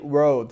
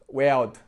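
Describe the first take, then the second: First: It is said in the speaker's own accent. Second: It is said imitating a Liverpool Scouse accent.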